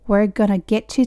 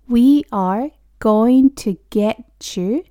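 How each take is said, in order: First: The words are reduced and run together quickly. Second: Each word is said slowly in its full form.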